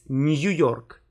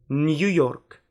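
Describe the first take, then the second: First: The vowel is said as two sounds, y-glide first. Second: The vowel is said as two sounds, y-glide first.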